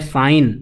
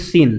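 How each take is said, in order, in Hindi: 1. स्वर लंबी 'eye' ध्वनि है। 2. स्वर छोटी 'ih' ध्वनि है। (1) "इसको बोला जाता है साइन" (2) "ना कि सिन। सिन का मतलब पाप हो जाएगा"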